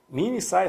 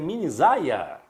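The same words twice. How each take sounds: First: The middle consonant sounds like s. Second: The middle consonant sounds like z.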